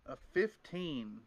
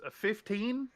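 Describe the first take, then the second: First: FIFTEEN drawn out slowly with a falling end; "fifteen" stated slowly, settling at the end; pondering. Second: FIFTEEN lifted high in a rising question; "fifteen" asked with a high upward lift. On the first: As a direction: weigh the number, stretching "fifteen" downward. Game master weighing the confirmed roll. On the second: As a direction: check the number, pitch climbing on "fifteen". Checking the dice roll result. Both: Real, not acted.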